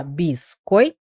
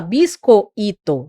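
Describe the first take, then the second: First: "biscoito" softer, "oi" said as one glide; glided diphthong. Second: "biscoito" split into separate vowels; wrong split. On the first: Teacher shows how students really say "biscoito". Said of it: "você fala biscoito". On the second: Teacher shows wrong split of "biscoito" to class. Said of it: "Você não fala biscoito". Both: Shown as a demonstration.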